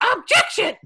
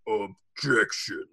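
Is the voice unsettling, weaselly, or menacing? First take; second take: weaselly; menacing. First: A weaselly impression of Winston Payne's objection. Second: A menacing impression of Von Karma's objection.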